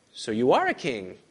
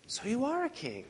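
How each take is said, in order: First: Plain statement. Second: Pitched high and soft, stress on are; a questioning, half-mocking "are"; doubting, ambivalent tone. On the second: Preacher shows Pilate's doubt. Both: Shown as a demonstration. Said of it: "Do you hear the ambivalence?".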